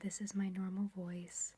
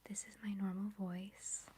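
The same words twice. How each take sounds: First: It is spoken at ordinary everyday loudness. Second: It is spoken quietly, in a soft voice. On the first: "That's what I sound like in real life" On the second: "I'm kind of like talking quietly"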